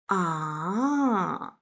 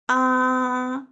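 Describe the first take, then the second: First: The pitch falls and then rises. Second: The pitch stays high and level. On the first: "falling down and then rising up, ... thinking sound" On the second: "open mouth sound"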